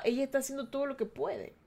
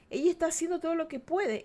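First: Said in the usual way. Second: "Ella" lifted high and stressed; emphatic repeat. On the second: Acted. Defending her inner child, stress on "Ella". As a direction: insist on "Ella", higher in pitch. Comforting herself, repeating line.

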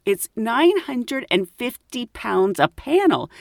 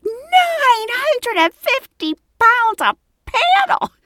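First: Slow, higher, measured quote of a price; lightly pompous shopkeeper, spelling it out; highbrow man. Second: Very high, slow mock squeal; shocked echo. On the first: Retold or imitated. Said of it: "Let's say that, highbrow man". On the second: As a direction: stretch every word in hammed-up disbelief. Repeats the price in shock.

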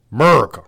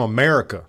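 First: America squashed to "Murica"; America with the opening vowel dropped, louder; mock pronunciation. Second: Said in the usual way. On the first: Shown as a demonstration. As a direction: say America as "MUR-ka", first syllable punched. Mocks the patriotic pronunciation.

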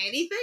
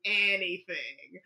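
First: ANYTHING lifted high and rising, as a question; quick, higher-pitched "Anything?" checking the offer; questioning echo. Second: ANYTHING low and stretched out slowly; slow, lower-pitched "Anything." as a firm answer; drawn-out confirmation. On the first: Retold back-and-forth over a bargain. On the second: Retold answer confirming the bargain offer. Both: Retold or imitated.

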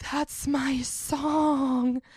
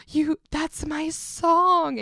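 First: Slow, sulky, possessive drawl of a claim; drawn-out claim. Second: Slow and a bit louder, insisting; insistent claim. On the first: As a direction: stretch every word out very slowly. Claiming the burrito song. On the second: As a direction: drag it out and press harder. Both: Retold or imitated.

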